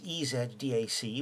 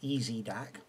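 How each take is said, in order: First: It is said with a non-American pronunciation. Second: It is said with an American pronunciation.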